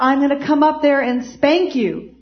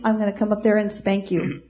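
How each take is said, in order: First: It is said in a firm, authoritative voice. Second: It is said in a mild, ordinary voice.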